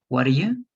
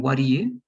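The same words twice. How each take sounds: First: "What do you" as "waddaya", middle vowel "uh"; contracted present. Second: "what do you" as "waddiya", middle vowel EE; contracted past. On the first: Teacher contrasting present with past, contracted present. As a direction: flap the T, weak "uh" for "do". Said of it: "It's like "do". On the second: Teacher contrasting past with present, contracted past. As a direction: flap the T, EE standing for "did". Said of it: "is like "did". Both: Shown as a demonstration.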